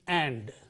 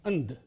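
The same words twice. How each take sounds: First: The word has a full, clear vowel. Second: The word has a reduced, weak vowel. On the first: "The full form is and, that is the strong form" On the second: "The weak form is and"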